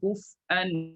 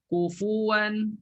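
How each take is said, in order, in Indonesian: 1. Bunyi f tidak punya vokal, lalu ada hentian glotal. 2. Ada vokal u yang jelas setelah f. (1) "betul-betul baca qiraat hamzah" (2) "kufu kena letak fu"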